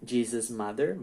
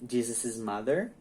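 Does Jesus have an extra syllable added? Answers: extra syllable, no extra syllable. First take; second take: no extra syllable; extra syllable. First: No extra syllable follows "Jesus". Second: An extra "iz" syllable follows "Jesus". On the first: "Se não, ela coloca só o apóstrofo" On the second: "Se a pessoa pronuncia com um apóstrofo, uma sílaba mais, o is"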